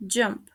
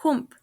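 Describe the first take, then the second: First: "jump" with English j; "jump" with j and uh vowel; correct pronunciation. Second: "hump" for jump, as hoomp; "hump" with Spanish j sound; mispronounced. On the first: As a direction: say "jump" as juhmp. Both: Shown as a demonstration. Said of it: "The correct pronunciation is".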